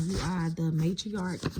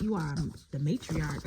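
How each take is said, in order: First: "You are the matriarch" drawn out slowly, each word weighted; slow emphatic declaration. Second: Said in the usual way. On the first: Shown as a demonstration. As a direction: proclaim it slowly, letting it land. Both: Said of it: "Spirit say you are the matriarch".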